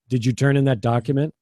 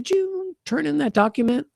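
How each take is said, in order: First: The tone is strong, falling downward. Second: The tone is light and soft. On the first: It sounds rude or accusing. The speaker calls it wrong. "your intonation was strong and downward" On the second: It is just a friendly question. The speaker calls it right. "It's a whole different feeling"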